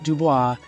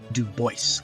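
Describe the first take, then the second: First: The last syllable does not rhyme with 'voice'. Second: The last syllable rhymes with 'voice'. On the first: The speaker calls it wrong. "I'm not mispronouncing it. It's not Dubois" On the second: The speaker calls it right. "He pronounced it Du Bois, like like voice"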